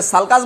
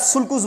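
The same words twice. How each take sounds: First: Sulcus with open vowels, "sal-kas". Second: Sulcus with "oo" in both syllables; sulcus as "sool-koos". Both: Shown as a demonstration. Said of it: "कैसे pronounce करोगे?".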